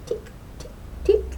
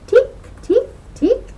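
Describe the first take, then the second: First: Tiny tapping ticks, barely voiced; soft hammer ticks. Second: High, loud tapping ticks; loud hammer ticks. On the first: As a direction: tap it out like a tiny hammer far away. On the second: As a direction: ring out each tick like a little hammer strike. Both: A narrator's reading.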